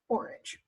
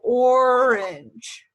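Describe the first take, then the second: First: The word is said at normal speed. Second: The word is said slowly and drawn out. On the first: "say it like just the word orange" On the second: "Try to do it a little bit slower at first"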